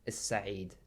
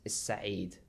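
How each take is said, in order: First: The L is dropped and the S is doubled. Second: The same.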